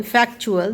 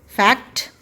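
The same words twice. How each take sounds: First: फैक्चुअल with the ट turned into च. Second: फैक्ट ending in a crisp ट; फैक्ट with a hard final ट; fact with a t. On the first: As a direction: say फैक्चुअल as fak-chu-al. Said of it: "च की आवाज़ आ रही है". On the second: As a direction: clip the ट at the end of फैक्ट. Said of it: "when you add T U A L". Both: Shown as a demonstration.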